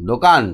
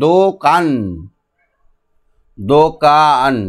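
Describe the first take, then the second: First: Said in the usual way. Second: "দোকান" slow and split, দো-কান; sounding out. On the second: Shown as a demonstration. Teacher shows the sound without spelling, "দোকান" drawn out by syllable. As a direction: stretch each syllable of "দোকান". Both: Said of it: "একসঙ্গে সাউন্ডটা উচ্চারণ".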